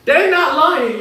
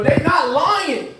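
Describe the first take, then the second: First: Said in the usual way. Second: "They not lying" dragged out slow and savoured; slow drawn-out. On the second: Shown as a demonstration. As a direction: stretch every word, half the speed.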